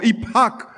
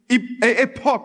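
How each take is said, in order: First: The word is pronounced the English way. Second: The word is pronounced the French way. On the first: "as they would say in English" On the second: "what we call in French an epoch"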